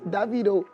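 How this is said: The name is said the South African way.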